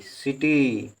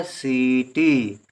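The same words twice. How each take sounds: First: सिटी with a short first i, सि clipped; short i in city. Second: सीटी with a long drawn सी, a little slow; long ii in seeti. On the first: Teacher to pupils, सिटी with a short first i. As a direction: say सिटी with a brief सि, not सी. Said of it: "इसे सीटी नहीं पढ़ेंगे". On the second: Teacher contrasting words for pupils, सीटी with long सी. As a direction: stretch the सी in सीटी. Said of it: "सीटी लिखने के लिए हमको सा में भी बड़ी की मात्रा". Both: Shown as a demonstration.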